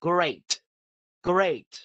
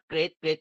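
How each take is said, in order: First: "great" punched out with a crisp final T; clear model pronunciation. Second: Imitating an unclear "great" with weak ending; unclear pronunciation. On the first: Shown as a demonstration. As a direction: say "great" emphatically, every sound clear. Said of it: "ครูไม่รู้ว่าเป็น great อะไร ต้อง great". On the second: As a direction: toss off "great" quickly, unemphatic, Thai-style. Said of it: "ครูฟังไม่ออก ถ้า great great".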